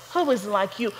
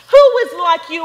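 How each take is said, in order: First: "Who is like you" dropped low and soft; hushed echo. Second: First "Who is like you" rung out loud and high; loud proclamation. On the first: Preacher echoing the scripture line to the congregation, hushed. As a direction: let the question fall to a hush. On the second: Preacher reading Exodus to the congregation, ringing loud. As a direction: proclaim the "Who" to the whole church. Repeated scripture line, loud then quiet. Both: Acted.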